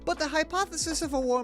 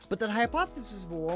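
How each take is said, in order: First: It is said in a put-on Irish accent. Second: It is said in a plain, natural accent.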